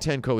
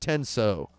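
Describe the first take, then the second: First: The second syllable is pronounced 'ko'. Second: The second syllable is pronounced 'so'. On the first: The speaker calls it wrong. "I'm saying tenko" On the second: The speaker calls it right. "It's tenso. I pronounced that wrong"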